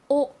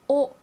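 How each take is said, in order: No difference in how they are said.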